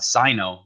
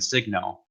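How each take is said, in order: First: The word is said without a g sound. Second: The word is said with a g sound. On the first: This is how the speaker always said it. "I always called the pen uh Sino" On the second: This is how others say it. "rather than Signo"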